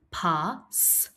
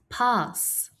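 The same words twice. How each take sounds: First: "pass" split into "pa", pause, "sss"; sounded out. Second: Said in the usual way. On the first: Shown as a demonstration. Teacher inviting pupils to help, pass split as pa, s. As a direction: set the final S of "pass" apart. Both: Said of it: "Help me say".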